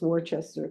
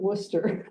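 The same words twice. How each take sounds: First: The name is said the outsider way. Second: The name is said the local way. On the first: This is how callers from elsewhere say it. The speaker calls it wrong. "anybody I talk to for a credit card or anything, it's always Worcester" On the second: This is how residents say the name. The speaker calls it right. "we do pronounce it Worcester"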